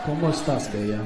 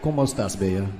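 First: Second try, still a bad Spanish accent. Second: Put-on clumsy Spanish accent, flirty; bad Spanish accent. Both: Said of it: "the worst Spanish accent I've ever heard".

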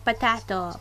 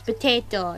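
First: "potato" with a flat a vowel, po-TA-to like "cat"; wrong pronunciation. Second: "potato" with a long ay vowel, po-TAY-to; correct pronunciation. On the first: Mocking the wrong way viewers say potato, po-TA-to. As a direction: say "potato" as po-TAH-to, the rejected way. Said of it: "not potato". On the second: Correcting viewers on how to say potato, po-TAY-to. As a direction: say "potato" as po-TAY-toe, the accepted way. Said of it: "It's potato, not potato". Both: Shown as a demonstration.

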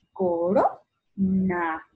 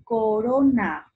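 First: "Corona" slow as coRO, pause, na; stress on RO. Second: Said in the usual way. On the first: Shown as a demonstration. Teacher separating the word, stressed RO in slow "Corona". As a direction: lift RO in "Corona" and halt before na. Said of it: "La ro". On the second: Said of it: "separa en sílabas".

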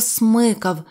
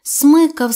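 First: Said in the usual way. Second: Смикав higher and louder, jerked out; смикав with a sudden punch; sharp tug. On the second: A narrator's reading. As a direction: snap out смикав like a yank.

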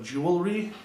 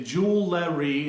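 First: Said in the usual way. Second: Jewelry said choo-lery, syllables swapped; jewelry as joo-luh-ree; mispronounced jewelry. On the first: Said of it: "instead of jewelry". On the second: Shown as a demonstration. Asking viewers, jewelry said choo-lery. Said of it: "if you say jewelry instead of jewelry".

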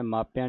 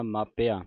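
First: ਮਾਪਿਆਂ with a nasal last vowel; mistaken nasal ending. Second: ਮਾਪਿਆਂ with the last vowel un-nasalised, maa-pe-aa; no nasal ending. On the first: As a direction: end ਮਾਪਿਆਂ through the nose. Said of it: "ਮਾਪਿਆਂ ਨਹੀਂ ਕਹਿ ਦੇਣਾ". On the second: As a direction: end ਮਾਪਿਆਂ on a pure oral aa. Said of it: "ਬਿੰਦੀ ਤੋਂ ਰਹਿਤ ਪੜ੍ਹਨਾ". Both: Shown as a demonstration.

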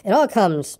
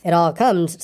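First: Mildly cross, understated grumble; a touch of crossness in the reading. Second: Mildly stern, understated reproof; a touch of sternness in the reading. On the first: Pooh stuck in the doorway, mildly cross. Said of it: "said Pooh crossly". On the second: Rabbit correcting the stuck Pooh, mildly stern. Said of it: "said Rabbit sternly". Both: A narrator's reading.

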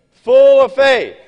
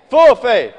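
First: "full of faith" drawn out slow and loud, leaning on "full"; stressed phrase. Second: "Full of faith" loud at normal pace, punch on "Full"; repeated emphasis. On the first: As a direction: stretch "full of faith" and hit "full" hard. Preacher stressing key phrase. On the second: Preacher repeats the phrase. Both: Acted.

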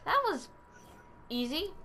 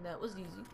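First: High start, pause, then rising "easy"; surprised, halting "That was... easy"; pleasantly surprised. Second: Low, soft catchphrase imitation; understated mimicked slogan; Staples button. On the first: Real, not acted. Reacting to quick success before button quote. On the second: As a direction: drop it low and quiet like a recorded button. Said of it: "I need that Staples button".

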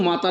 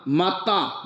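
First: ਮਾਤਾ said quickly like the everyday word for mother; the mistaken reading of ਮਾਤਾ, said in passing; wrong reading. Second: ਮਾਤਾ drawn out slowly, as the word for intoxicated; correct reading. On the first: Preacher warning listeners off a misreading of ਮਾਤਾ, wrong reading. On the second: Preacher showing listeners how to read ਮਾਤਾ, drawn-out correct reading. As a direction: stretch ਮਾਤਾ slowly, each syllable set apart. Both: Shown as a demonstration. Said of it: "ਇਹਨੂੰ ਮਾਤਾ ਨਹੀਂ ਪੜ੍ਹਨਾ".

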